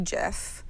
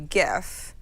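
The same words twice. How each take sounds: First: The word begins with a j sound. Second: The word begins with a hard g sound. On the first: This sounds like the name of a peanut butter. The speaker calls it wrong. "If you want to talk about peanut butter" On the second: This is the proper way to say it. The speaker calls it right. "if you want to say it appropriately"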